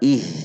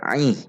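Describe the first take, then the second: First: The vowel starts plainly, with no throat sound. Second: The vowel starts with a sound from mid-throat. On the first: The speaker calls it wrong. "Tidak dibaca ih" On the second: The speaker calls it right. "Aih di tengah tenggorokan"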